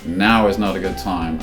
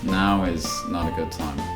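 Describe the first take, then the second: First: It sounds abrupt and curt. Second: It sounds soft and apologetic. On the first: The listener is being brushed off. The speaker calls it wrong. "be careful with the tone" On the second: The speaker regrets being unable to help. The speaker calls it right. "I'm so sorry"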